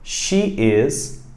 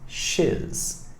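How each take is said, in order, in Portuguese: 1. Duas palavras separadas são ditas por completo. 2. As palavras se juntam em uma sílaba curta.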